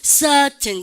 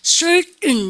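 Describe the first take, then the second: First: The R is dropped and the vowel lengthened. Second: The R is strongly pronounced in the middle. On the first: "영국 애들은 여러분들 트 발음 살리면서 ... 아 발음에 장음 처리합니다" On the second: "미국 애들은 R 발음 염두에 굴릴 수 있는 만큼 굴립니다"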